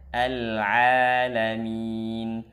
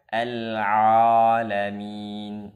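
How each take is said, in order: First: The ain is pronounced light and thin. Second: The ain is pronounced heavy and thick. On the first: The speaker calls it right. "tapi tipiskan dengan datarkan lidahnya saja" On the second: The speaker calls it wrong. "Jangan sampai dibaca al-alamin"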